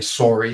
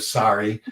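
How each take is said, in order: First: It is said with a Canadian vowel. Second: It is said with a standard American vowel. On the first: The speaker calls it wrong. "there's always a warning for the Canadians" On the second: The speaker calls it right. "they want a standard American accent"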